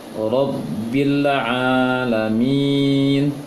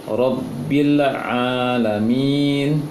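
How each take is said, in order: The two takes are said the same way.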